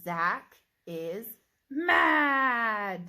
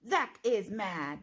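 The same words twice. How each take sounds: First: Loud shouted mad, voice high; shouted angry demo of mad; mad with excitement. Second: Slow model read. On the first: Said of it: "read it with excitement". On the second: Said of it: "My turn". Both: Shown as a demonstration.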